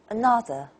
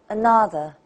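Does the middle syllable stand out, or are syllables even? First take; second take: middle stands out; middle stands out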